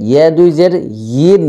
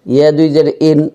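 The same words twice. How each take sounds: First: ইন as "yeen", held y glide; audible y starting ইন; clear Ya. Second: ইন with the y dropped; ইন starting without any y glide; mistaken hamza. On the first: Shown as a demonstration. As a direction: lean into a y before ইন. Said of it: "ইয়ার উচ্চারণটি". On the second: Retold or imitated. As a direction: model the error, ইন as a bare vowel. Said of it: "অনেকে এরকম উচ্চারণ করে".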